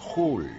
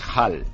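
First: The vowel is the northern Yorkshire vowel. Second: The vowel is the southern RP vowel. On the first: "allí en Hull dicen Hull" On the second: "RP English, la pronunciación... es Hull"

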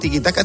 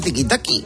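First: The last syllable ends in an a sound. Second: The last syllable ends in an i sound. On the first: The speaker calls it right. "En vez de tiki-taka" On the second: The speaker calls it wrong. "tiki-taki. Fíjate que es difícil"

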